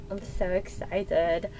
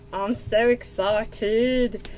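First: Quiet excitement. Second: Slow excitement. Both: Real, not acted.

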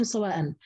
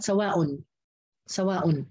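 First: سواء as "sawaa'an", ending in -an; nasb with tanween. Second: سواء as "sawaa'un", ending in -un; raf' with tanween. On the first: Teacher stating Hafs's reading, ending in nasb. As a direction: end سواء on a clear "-an". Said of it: "حفص عن عاصم قرأ بالنصب". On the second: Teacher showing the other readers' version, ending in raf'. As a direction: finish سواء on a rounded "-un". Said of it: "الباقي القراء قرأوا بالرفع". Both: Shown as a demonstration.

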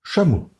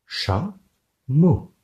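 First: Said in the usual way. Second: Cha-mo, cha and mo apart; split into syllables. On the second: Shown as a demonstration. Teacher to class, Cha-mo split into syllables. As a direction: tap out Cha-mo in two beats. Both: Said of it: "Un doigt pour chat".

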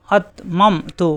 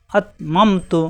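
First: আতমামতু spelled out very slowly with a hard stop on the hamza; slow drawn demo. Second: Said in the usual way. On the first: Shown as a demonstration. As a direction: draw out আতমামতু syllable by syllable. (খুব ধীরে আতমামতু) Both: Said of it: "এই যে হামজা সাকিন শক্ত".

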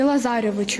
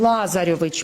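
First: "Лазарьовичу" stressed on the second syllable, la-ZA-ryovychu; misplaced stress. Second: "Лазарьович" stressed on the first syllable, LA-zaryovych; corrected stress. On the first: Real, not acted. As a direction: lean on "за" in "Лазарьовичу". Pupil's form, then corrected by teacher. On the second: Shown as a demonstration. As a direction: open firmly on "Ла" in "Лазарьович". Teacher corrects the patronymic's stress.

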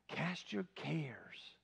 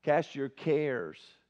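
First: Slow, soft whispered reminder. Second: Said in the usual way. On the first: Shown as a demonstration. Preacher repeating the song line to the congregation, whispered. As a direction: breathe the words out gently. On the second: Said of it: "we just sang the song".

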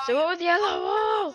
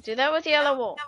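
First: "do it with yellow wool!" yelled higher, falling hard on "wool"; real frustrated yell; exasperated shout. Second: Said in the usual way. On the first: Real, not acted. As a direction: lose patience and shout it. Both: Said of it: "oh my gosh".

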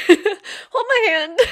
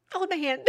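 First: Loud, slow, laughing repeat of the offer; playful laughing plea. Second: Tender offer. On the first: Real, not acted. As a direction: burst out laughing as you say it again. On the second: Acted. Reaching out to struggling listeners.

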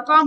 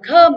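First: Com with a clear, rounded O; wrong full vowel. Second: Com as "kuhm", with a schwa, punched loud; correct reduced vowel. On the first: Teacher forbidding this reading, full O in com. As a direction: say com as "kom", the mistaken way. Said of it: "Không được phép đọc là com". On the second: Teacher giving the correct unstressed syllable, "kuhm" for com. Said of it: "Vậy chúng ta phải đọc là com". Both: Shown as a demonstration.

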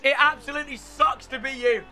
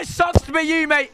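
First: Said in the usual way. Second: Gloating shout. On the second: Real, not acted. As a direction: crow it over the beaten opponent. Gloating at beaten opponent.

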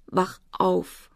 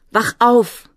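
First: Hushed, broken entreaty; quiet, weeping plea; tearful pleading. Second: Higher, much louder cry; loud, urgent outcry; desperate shout. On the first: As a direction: beg weakly through tears. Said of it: "flehte er weinend". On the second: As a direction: scream to rouse someone. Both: A narrator's reading.

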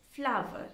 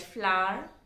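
First: "flower" in two syllables, FLAU-vuh; corrected pronunciation. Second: "flower" squashed into one syllable, "flar"; mispronounced flower. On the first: Teacher corrects the learners' slip, "flower" as two-beat FLAU-vuh. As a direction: say "flower" with a full "ow" glide, then "uh". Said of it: "No, that's not right. It is". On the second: Teacher shows how some of us tend to say "flower", as one-beat "flar". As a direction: say "flower" as FLAR, dropping the middle glide. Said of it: "tend to pronounce it as". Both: Shown as a demonstration.

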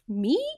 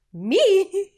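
First: Said in the usual way. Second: Very high, loud, squeaky "Me?", caught off guard; incredulous squeak. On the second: Retold or imitated. Replaying her reaction to a colleague's praise, a high loud startled squeak. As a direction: squeal it as if the praise can't be meant for you.

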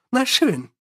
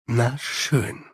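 First: Much higher, wry Na schön; Sally sizing up the standoff, Na schön high and wry. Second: Lower, softer Na schön; Angua, giving in. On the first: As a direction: toss Na schön off high and amused. Sally the vampire speaks. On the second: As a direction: concede Na schön low and quiet. Angua the werewolf gives in. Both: Acted.

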